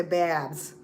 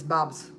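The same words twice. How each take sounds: First: "Babs" with a flat a as in cat; wrong Babs. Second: "Bobs" with a broad o vowel; Belizean Bobs. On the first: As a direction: say "Babs" with an open front a. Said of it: "we don't say Babs". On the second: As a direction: say "Bobs" like the family does. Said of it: "It's almost like B O B S". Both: Shown as a demonstration.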